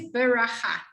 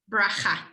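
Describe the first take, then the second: First: A short vowel separates the b and r. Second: The b runs straight into the r. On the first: The speaker calls it wrong. "It says beracha" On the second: The speaker calls it right. "it actually wants you to say bracha"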